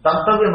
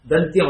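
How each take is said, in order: First: దంతవ్యం with an extra -avyam ending; దంతవ్యం said in three beats, dan-ta-vyam; mistaken form. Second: దంత్యం with t running straight into y; దంత్యం with no v before the y; correct form. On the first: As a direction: show దంతవ్యం with v before y. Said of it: "దంతవ్యం అనకూడదు". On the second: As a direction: show దంత్యం in two beats, dant-yam. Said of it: "దంత్యం అనాలి". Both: Shown as a demonstration.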